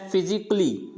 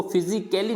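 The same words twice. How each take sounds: First: फिजिकली with silent A, ending in "klee"; correct pronunciation. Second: फिजिकली with the A sounded, ending "kelly"; wrong pronunciation. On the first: Teacher models the word for students, फिजिकली ending "klee" with no A. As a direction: say फिजिकली as fi-zi-klee, three beats. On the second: Teacher shows students the mistake, फिजिकली ending in "kelly". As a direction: say फिजिकली as fi-zi-ke-lee. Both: Shown as a demonstration. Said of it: "इसको फिजिकली नहीं बोलेंगे".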